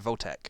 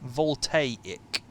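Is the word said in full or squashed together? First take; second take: squashed; full. First: The word is said quickly and squashed together. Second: Every syllable of the word is said in full. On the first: "I'm just saying it fast, so it makes it sound like" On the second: "It's Voltaic"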